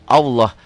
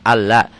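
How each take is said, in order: First: The L sound is thick and heavy. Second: The L sound is thin and light. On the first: The speaker calls it right. "untuk lafaz Allah jadi tebel" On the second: The speaker calls it wrong. "Kan harusnya Allah"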